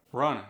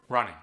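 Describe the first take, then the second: First: "Running" ending in a plain N, runnin'; dropped G. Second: Said in the usual way. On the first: Shown as a demonstration. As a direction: drop the G of "Running". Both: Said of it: "dropping the G".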